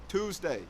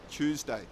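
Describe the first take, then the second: First: It begins with a strong, clear t sound. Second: It begins with a ch sound, like choose. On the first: "in American English, there is a much stronger T sound" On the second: "But in British English, it is Tuesday"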